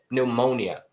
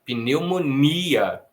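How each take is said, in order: First: "Pneumonia" as pneu-MÔ-nia, English-like; English-like stress. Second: "Pneumonia" drawn out slowly with a long stressed NI. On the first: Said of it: "Em inglês é mais ou menos por aí". ("Pneumonia" com a força no MO, como em inglês) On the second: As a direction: hit and stretch the I: pneu-mo-NI-a. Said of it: "a gente coloca a força no i". ("Pneumonia" bem devagar, com a força no I) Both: Shown as a demonstration.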